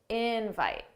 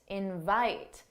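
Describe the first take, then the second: First: The stress is on the first syllable. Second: The stress is on the second syllable. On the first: It is a noun meaning an invitation. "the stress is on in. That's the stress syllable" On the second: It is a verb meaning to ask someone to come. "for the verb, the stressed syllable is the second syllable"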